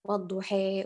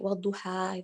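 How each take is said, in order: First: The final vowel is bent toward 'e'. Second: The final vowel is a plain open 'a'.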